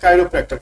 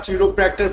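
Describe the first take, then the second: First: The first syllable starts with a 'kai' sound. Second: The first syllable starts with a 'chi' sound. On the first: "but actually pronunciation इसका काइरोप्रैक्टर कहते हैं" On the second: "इसको अगर आप चिरोप्रैक्टर पढ़ रहे हो तो कोई गलत नहीं कह सकते"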